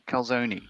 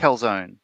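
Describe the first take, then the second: First: It is said with an Australian pronunciation. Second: It is said with an American pronunciation. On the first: This is how the speaker thinks it should be said. The speaker calls it right. "but it would be a calzone, surely" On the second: This is how the people on the American bases say it. The speaker calls it wrong. "they call it a calzone"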